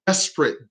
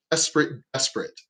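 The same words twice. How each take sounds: First: Said in the usual way. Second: Each repeat softer, the last almost gone; echoing fade-out. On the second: Acted. To the audience about his despair, fading to a hush. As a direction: let the word die away like an echo.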